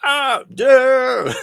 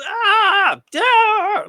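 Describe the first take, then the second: First: Loud, high pained scream; "Ah, yeah" screamed like a game sample; death scream. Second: High, loud pained scream of "Ah, yeah"; mimicked death scream. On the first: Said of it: "the sample with him going". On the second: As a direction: wail it like a dying man. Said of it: "I'm gonna mimic it now". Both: Shown as a demonstration.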